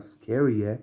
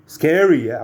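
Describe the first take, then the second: First: A toned-down re-enacted yelp; half-hearted mock scare, slightly raised pitch; milder retaliating cry. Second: Loud, high startled yell; retaliating shout. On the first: Retelling what was said to the cat, mild mock retaliation. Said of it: "I was like". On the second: Retold or imitated. Startled speaker retaliating at a cat, sudden shout. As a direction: shout it to scare something off. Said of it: "I retaliated, and I said".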